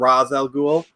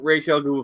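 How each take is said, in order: First: The first word sounds like 'rahz'. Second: The first word sounds like 'raysh'. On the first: The speaker calls it wrong. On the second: The speaker calls it right.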